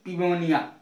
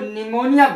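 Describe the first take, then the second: First: The word begins with a p sound. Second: The word begins with an n sound. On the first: The speaker calls it wrong. "ना कि पिमोनिया" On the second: The speaker calls it right. "इसको निमोनिया बोलते हैं"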